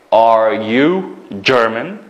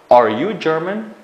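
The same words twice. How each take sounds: First: Are you German, very slow with a rising end; slow question. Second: Are you German, rising at the end; question tune. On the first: Teacher repeating the question slowly for pupils. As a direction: draw it out slowly for the class. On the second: Teacher turning a statement into a question. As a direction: ask it, lifting on German. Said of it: "savol qilsak". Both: Shown as a demonstration.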